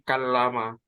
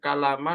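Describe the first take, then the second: First: The middle consonant is held long and doubled. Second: The middle consonant is short and single. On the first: "kalau dijadikan tasydid menjadi" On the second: "kalau aslinya"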